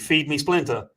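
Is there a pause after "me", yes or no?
no. It is said with no pause after "me".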